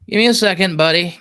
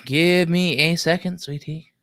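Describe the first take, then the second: First: Loud and quick, holding a friend off for a second; hurried call to buddy. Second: Mock sweet. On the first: Real, not acted. Streamer loudly asks his buddy to wait, hurried. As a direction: call it out like you're juggling tasks. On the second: Streamer teasingly soothes his waiting friend, mock sweet and slow. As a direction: coo it like talking to a baby, half joking. Same request redone sweetly.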